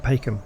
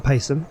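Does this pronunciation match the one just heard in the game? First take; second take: matching; different. First: The name is said like the game's version. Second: The name is said differently from the game's version. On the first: The speaker calls it right. "the first time I've actually heard that word said" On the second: The speaker calls it wrong. "as I've been saying it"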